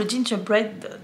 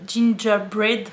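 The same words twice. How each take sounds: First: Said in the usual way. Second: "gingerbread" sounded out very slowly, syllable by syllable; trying the English word. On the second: Shown as a demonstration. ("gingerbread" articulé lentement, hésitante) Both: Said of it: "je sais pas comment on le dit".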